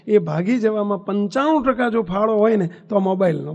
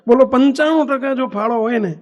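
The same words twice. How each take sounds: First: Said in the usual way. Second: પંચાણું hit hard and louder, falling; stress on પંચાણું. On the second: Real, not acted. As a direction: drive home પંચાણું with a louder punch. Preacher repeats claim with force. (પંચાણું પર જોરદાર ભાર, ઊંચા અવાજે)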